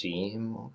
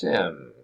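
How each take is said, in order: First: The word has a long ee vowel. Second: The word has a short i vowel. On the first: This is how most people say it. "usually pronounced seam" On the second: Some people say it this way. "could be pronounced sim"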